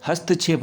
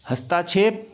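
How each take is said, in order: First: हस्तक्षेप as hast-kshep, short middle; no long aa. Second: हस्ताक्षेप with long taa, hastaakshep; extra aa. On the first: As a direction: run st straight into kshep in हस्तक्षेप. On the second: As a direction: insert a long aa in the middle of हस्ताक्षेप. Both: Shown as a demonstration. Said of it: "इसमें आ की मात्रा नहीं आएगी".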